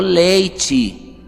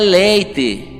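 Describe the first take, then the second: First: The final vowel sounds like 'ee'. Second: The final vowel sounds like 'eh'. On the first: The speaker calls it wrong. "I, é I" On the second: The speaker calls it right. "Senão era leite"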